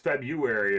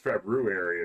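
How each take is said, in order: First: It is pronounced the casual spoken way. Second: It is pronounced fully, as it is spelled. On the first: This is how people say it in speech. "it's February if you're saying it" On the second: This follows how the word is written. "It's February if you're spelling it"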